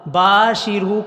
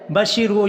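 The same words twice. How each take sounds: First: باشرو with a long drawn با; correct long ba. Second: بشرو with the first vowel cut short; mistaken short ba. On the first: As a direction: stretch the first vowel of باشرو. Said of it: "با کو لمبا کرنا ہے". (باشرو میں با کو لمبا کر کے) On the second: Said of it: "کی بجائے بشرو". (بشرو میں با کو چھوٹا کر کے) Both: Shown as a demonstration.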